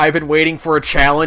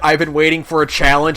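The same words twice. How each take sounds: First: It is said in a tough, sinister tone. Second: The same.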